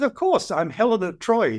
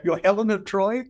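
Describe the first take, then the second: First: Proud, matter-of-fact claim voiced higher; Helen of Troy. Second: Higher, incredulous rising question; sceptical disbelief. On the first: Feisty older lady on the plane claims to be Helen, proudly. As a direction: announce it as if it were obvious. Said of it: "She says". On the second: Retold or imitated. To the feisty lady on the plane, in disbelief. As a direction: doubt every word she just said. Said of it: "look at her with absolute sca".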